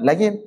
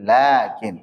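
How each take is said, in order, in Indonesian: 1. Vokal pertama pendek. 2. Vokal pertama dibaca panjang. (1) "Bacanya bukan lakin" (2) "tapi lakin"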